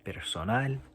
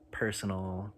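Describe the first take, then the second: First: It is said with a Spanish accent. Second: It is said with an English accent.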